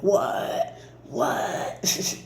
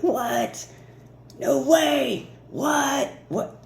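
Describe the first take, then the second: First: Breathless whispered disbelief, barely voiced; stunned whisper. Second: Much higher, excited yelps of disbelief; squealing disbelief. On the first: To viewers, when big abundance rolls in: whispered awe. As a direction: gasp it out as if you can't believe your luck. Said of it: "you're gonna be like". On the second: Pretend. To viewers, imagining the big things rolling in: high squeal of shock. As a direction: shriek it like you just won the lottery. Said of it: "You're gonna be like".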